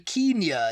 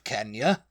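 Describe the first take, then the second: First: It is pronounced the posh upper-class way. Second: It is pronounced the ordinary everyday way.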